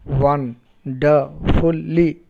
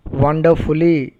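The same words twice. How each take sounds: First: "wonderfully" very slow: won, der, ful, ly; syllable by syllable. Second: Said in the usual way. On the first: Shown as a demonstration. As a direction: leave gaps between the four syllables of "wonderfully". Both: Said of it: "four syllables".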